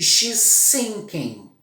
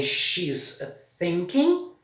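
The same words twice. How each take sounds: First: "sinking" with a hissed S; "she's sinking" says S, not TH. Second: "thinking" with the tongue between the teeth. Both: Shown as a demonstration. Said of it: "eu falei duas frases".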